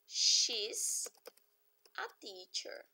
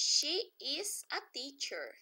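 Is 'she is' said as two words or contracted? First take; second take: contracted; two words. First: She is is joined into one syllable. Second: She is is said as two separate words.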